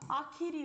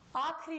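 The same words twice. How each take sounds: First: Every vowel inside the word is kept. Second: A vowel inside the word is dropped. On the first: The speaker calls it right. "आखिरी होता है" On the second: The speaker calls it wrong. "आखिरी नहीं होता है"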